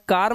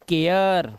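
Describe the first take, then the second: First: The vowel sounds like a long 'ar'. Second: The vowel glides from 'eh' to 'yuh'. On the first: The speaker calls it wrong. "या कार मत पढ़ना" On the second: The speaker calls it right. "एया की आवाज आ रही है"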